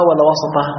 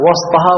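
First: وسطها as wa-sa-Ta-haa; short a after the s in وسطها; fatha on the seen. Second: وسطها as WAS-Ta-haa, no vowel after s; sukun on the seen. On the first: Teacher quizzing students on the hadith, opened seen in وسطها. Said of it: "فتح السين". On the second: Teacher quizzing students on the hadith, unvowelled seen in وسطها. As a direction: keep the seen of وسطها closed. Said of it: "وإسكان السين". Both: Shown as a demonstration.

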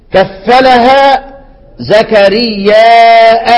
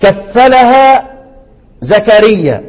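First: Slow Quranic reading with hamza; recited with hamza. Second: Drawn-out كفلها, short زكريا; recited without hamza. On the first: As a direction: stretch زكرياء and close on the hamza. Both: Shown as a demonstration. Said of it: "انتبه معايا في الموضع ده".

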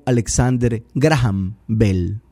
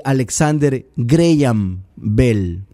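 First: Graham said "GRA-ham", Spanish vowels, sounded h; president's mispronunciation. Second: Graham said "GREY-am", slowly; correct English pronunciation. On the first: Retold or imitated. Commentator quoting the president's error, Graham mispronounced "GRA-ham". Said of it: "Él lo llamó". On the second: Shown as a demonstration. Commentator correcting the president's English, Graham pronounced "GREY-am". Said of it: "la pronunciación es Graham".

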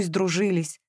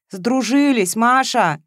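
First: Said in the usual way. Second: "Сдружились" repeated louder and higher; firm, raised stress on "Сдружились"; emphatic correction. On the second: A narrator's reading. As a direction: drive home "Сдружились" insistently. Repeats the word insistently.

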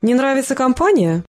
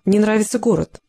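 First: Higher, mannered question peaking on компания; affected teasing. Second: Level, restrained statement; even reply. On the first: Woman needling the Spanish woman about company, affected teasing. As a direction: ask it with a coy swing on компания. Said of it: "манерно протянула проказа". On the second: Small woman answering the teasing about leaving, evenly. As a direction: answer evenly, with little tune. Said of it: "ровно ответила маленькая женщина". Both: A narrator's reading.

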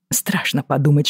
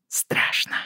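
First: Said in the usual way. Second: A soft breathy whisper of fear. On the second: A narrator's reading. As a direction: whisper the word Страшно, barely voiced. Fearful confession to lover.

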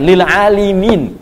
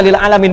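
First: "lil alimin" with long "aa" and "li" before "min"; corrected reading. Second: "lil alamin" with a plain short first "a"; misread ending. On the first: Preacher correcting a common misreading, careful drawn-out "lil alimin". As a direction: stretch it slowly, "lil aalimiin". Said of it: "bukan, lil alimin". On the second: Preacher quoting a common slip to the congregation, misread "lil alamin". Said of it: "ada yang salah baca". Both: Shown as a demonstration.

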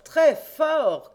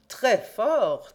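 First: High, loud ringing repeat; louder shout. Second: Louder, higher mocking call; shouted praise. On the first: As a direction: push the praise out even louder. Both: A narrator's reading. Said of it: "cria de sa place Frédéric Larsan".

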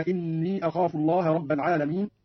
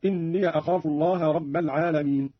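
First: Said in the usual way. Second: إني said "inniya", joined to أخاف; fatha on the ya. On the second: Shown as a demonstration. Teacher showing Qalun's joined reading, إني as "inniya". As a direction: open إني into a short "-ya" before أخاف. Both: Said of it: "قرأ قالون بفتح ياء إني أخاف وصلا".

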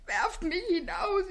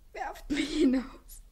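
First: Voiced desperate plea. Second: Whispered plea. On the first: Second plea voiced, rising. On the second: Acted. First plea whispered, slow.

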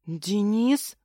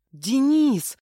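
First: Astonished questioning of the name Денис; startled gasp. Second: High, loud exclamation of the name Денис; yelling. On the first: Heroine recognising her attacker, gasping in surprise. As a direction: ask it in sudden recognition, voice rising at the end. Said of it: "ахнула я". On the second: Heroine recognising the missing man, yelling. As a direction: yell it out in amazement. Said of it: "заорала я". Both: A narrator's reading.

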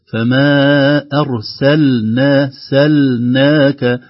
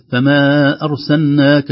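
First: "أرسلنا" with the lam fully finished before the nun, very slow; clear lam. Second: "أرسلناك" with the lam swallowed into the nun, slow and louder; wrong merged lam. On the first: Teacher models the correct clear lam. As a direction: separate the lam cleanly in "فما أرسلنا". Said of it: "نتخلص من اللام". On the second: Teacher shows the careless merged reading. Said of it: "لو لم ننتبه". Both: Shown as a demonstration.

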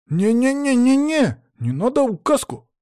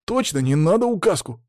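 First: Very high, stuttered flurry of refusals; panicked boy. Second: Put-on higher-pitched eager boy's agreement; agreeing boy. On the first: Pupil alarmed by the pointer threat, panicked. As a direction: squeal the protest in alarm. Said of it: "тут же всполошился Саня". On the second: Pupil seconds his friend's plea, eagerly agreeing. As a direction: back up your pal, pitched up. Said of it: "закивал Боря". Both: A narrator's reading.

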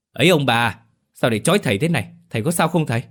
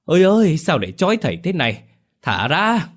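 First: Alarmed intervening. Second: Tied-up exorcist howling to be set free; howling cry. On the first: Son rushes in to intervene. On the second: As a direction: howl it out high and loud like a lone wolf. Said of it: "rú lên như chó sói cô đơn". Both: Acted.

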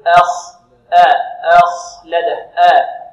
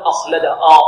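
First: أخلد with light hamza then heavy kha, slow; correct take. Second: أخلد with the hamza wrongly thickened; wrong take. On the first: Teacher giving the correct reading, slow and loud. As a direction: split it slowly, light alif then full kha. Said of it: "بل نقول". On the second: Teacher showing students the wrong reading, heavy hamza. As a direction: say the alif heavy by mistake on purpose. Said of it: "لا، هذا خطأ". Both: Shown as a demonstration.

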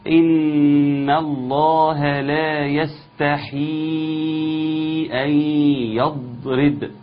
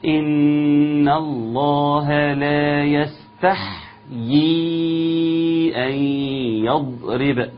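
First: يستحي sung with a kasra on the ح; deliberately wrong recitation. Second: يستحيي sung with the ح silent; correct recitation. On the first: Teacher testing students with a deliberate mistake in a melodic chant. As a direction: chant it slowly with the ح wrongly given a vowel. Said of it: "قولوا لي قراءتي صح ولا خطأ". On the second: Teacher giving the correct melodic recitation after the mistake. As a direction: chant it slowly with a clean silent ح. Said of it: "تسكن الحاء جيدًا". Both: Shown as a demonstration.

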